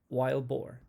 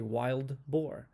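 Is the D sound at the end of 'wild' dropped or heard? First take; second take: dropped; heard. First: The D is dropped and the words run together. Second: The D at the end of wild is pronounced. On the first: "quick and connected" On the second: "if it's with a D, we say wild boar"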